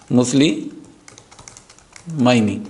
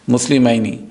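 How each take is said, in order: First: مسلمینی stretched very slowly, falling at the end; slow teacher demo of مسلمینی; drawn-out model word. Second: Said in the usual way. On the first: Shown as a demonstration. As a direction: spell out مسلمینی syllable by syllable, slowly. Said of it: "drawn-out model pronunciation". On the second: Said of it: "quick repeat".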